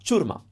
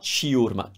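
First: CIURMA as CHOOR-ma, i silent; correct Italian pronunciation. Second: CIURMA as chee-OOR-ma, i sounded; wrong split version. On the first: Teacher correcting learners, CIURMA starting on one chu sound. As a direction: say "ciurma" in two syllables. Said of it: "It's not ciurma". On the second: Teacher showing what to avoid, CIURMA with an extra i syllable. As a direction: say "ciurma" with a separate i before the u. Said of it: "It's not". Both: Shown as a demonstration.

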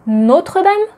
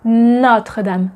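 First: Notre Dame with a closed O, higher and anglicized; mock the mistake, Notre Dame with a tight O; wrong closed o. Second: Notre Dame with an open O, slow; correct open o. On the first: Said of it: "We don't say". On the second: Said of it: "we say". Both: Shown as a demonstration.

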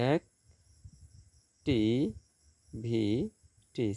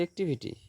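First: "এক, টি, ভি, টি" as four separate beats; syllable by syllable. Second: Said in the usual way. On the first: Shown as a demonstration. Teacher counting syllables for students, "এক, টি, ভি, টি" syllable by syllable. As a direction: break "এক, টি, ভি, টি" apart with long gaps. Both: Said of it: "চারটি syllable".

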